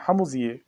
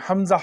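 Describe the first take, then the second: First: "हमजिए" ending in an i-ye sound; variant letter name. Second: "हमजा" ending on an open aa; standard reading. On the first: Teacher names the letter for learners, "हमजिए" ending in i-ye. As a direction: say "हमजिए" with a final ee-ay. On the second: Teacher explains the reading to learners, "हमजा" ending in aa. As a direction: say "हमजा" with final aa, not i-ye. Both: Shown as a demonstration. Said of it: "यानी हमजा पढ़ते हैं".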